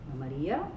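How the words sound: The pitch starts low and rises at the end. "low star high"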